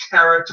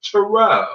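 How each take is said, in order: First: "tarot" with a sounded final T, like carrot; rhymes with carrot. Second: "tarot" ending in an open "oh", no final T; correct silent-T pronunciation. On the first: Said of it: "It's like carrot, only tarot". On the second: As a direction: say "tarot" as "ta-roh". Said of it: "but it's pronounced tarot". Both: Shown as a demonstration.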